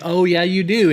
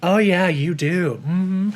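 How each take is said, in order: First: "do" stressed firmly, said as if meant; sincere emphasis. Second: Slow, drawn-out "Oh, yeah, you do" with fake cheer; insincere reassurance. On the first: Vlogger demonstrating an honest compliment, stressing "do". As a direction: lean on "do" to sound sincere. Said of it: "you put emphasis if it's the truth". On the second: Vlogger demonstrating a fake compliment, slow and hollow. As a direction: stretch it out so it sounds like a lie. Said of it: "But sometimes you're like". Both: Shown as a demonstration.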